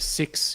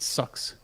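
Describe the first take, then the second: First: The vowel is a clear, front 'i' sound. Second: The vowel is centralized, sounding like 'sucks'. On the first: "instead of six" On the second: "It's all about the I sound"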